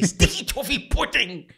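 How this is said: It is said in a Professor Umbridge voice.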